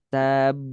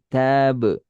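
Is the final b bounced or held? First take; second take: held; bounced. First: The final b is held before release. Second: The final b bounces out at once. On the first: The speaker calls it wrong. "jangan ditahan dulu. Jangan tab" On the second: The speaker calls it right. "langsung pantulkan ... tapi tab"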